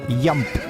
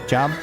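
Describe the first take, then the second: First: The word begins with a Y sound. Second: The word begins with a J sound. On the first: The speaker calls it right. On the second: The speaker calls it wrong.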